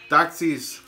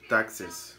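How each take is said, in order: First: The second syllable has a clear 'ee' vowel. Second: The second syllable has a short, reduced vowel. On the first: The speaker calls it wrong. "Ezequiel siempre dice taxis, digo que no se dice taxis" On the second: The speaker calls it right.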